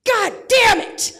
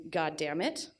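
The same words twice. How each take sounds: First: Much higher, louder, slow exploding curse; drawn-out furious yell, damn hit hardest; dad's shout. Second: Said in the usual way. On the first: Retold or imitated. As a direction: blow up like an exasperated dad. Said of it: "which goes a little bit like this". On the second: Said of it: "His dad has a very specific way of saying".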